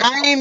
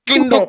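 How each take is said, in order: First: The vowel is a long 'eye' sound. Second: The vowel is a short 'i' sound. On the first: The speaker calls it right. "కైండ్ అనాలి" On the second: The speaker calls it wrong. "కిండు కిండు కైండ్ అనకూడదు"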